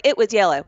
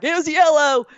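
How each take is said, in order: First: Mildly insistent retort; retold insistence. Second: High, insistent imitation of Dad; retold argument. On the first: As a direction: retell your own firm claim, lightly. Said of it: "I got into this argument". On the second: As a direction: mimic Dad arguing back, pitched up. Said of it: "Daddy's like".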